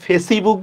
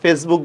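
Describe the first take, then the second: First: An extra 'i' vowel is sounded after 'face'. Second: No vowel is sounded between 'face' and 'book'. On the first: The speaker calls it wrong. "আমরা কি ফেসিবুক বলি" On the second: The speaker calls it right. "ইর কিন্তু উচ্চারণ হচ্ছে না"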